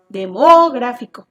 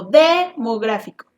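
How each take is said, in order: First: "Demográfico" stressed wrongly on MO, held long and loud; de-MO-gráfico, leaning hard on "mo"; misplaced stress. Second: "demográfico" stressed wrongly on DE, held long; DE-mográfico, leaning hard on "de"; misplaced stress. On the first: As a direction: punch the second syllable of "Demográfico". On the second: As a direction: punch and stretch the first syllable of "demográfico". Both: Shown as a demonstration. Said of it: "No se escucha bien".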